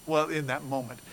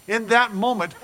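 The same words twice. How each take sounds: First: Said in the usual way. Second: "In that moment" said louder and higher, hitting "that"; emphatic restart. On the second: Shown as a demonstration. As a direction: punch "that" in "In that moment". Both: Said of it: "restarts the phrase stronger".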